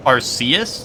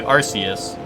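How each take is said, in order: First: Arceus as ar-SEE-us, testing it; Arceus with long C, ar-SEE-us. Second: Arceus, ar-SEE-us, said firmly as own way; Arceus as ar-SEE-us, settled. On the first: Streamer tests the long-C Arceus for chat. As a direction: try Arceus with a soft long C. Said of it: "Long C for Arceus?". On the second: Streamer gives own usual Arceus, ar-SEE-us. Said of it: "I just say Arceus". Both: Shown as a demonstration.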